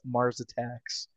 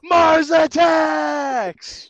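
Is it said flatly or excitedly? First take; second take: flatly; excitedly. First: It is said flatly, without excitement. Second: It is said excitedly, like an exclamation.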